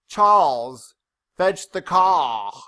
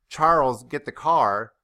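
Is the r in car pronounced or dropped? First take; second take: dropped; pronounced. First: The r sounds are dropped. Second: The r sounds are pronounced.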